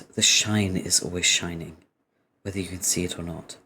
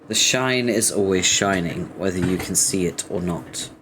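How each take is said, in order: First: It is read in a put-on character voice. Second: It is read in the reader's ordinary voice. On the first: The speaker calls it right. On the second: The speaker calls it wrong.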